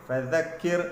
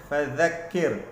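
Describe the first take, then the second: No difference in how they are said.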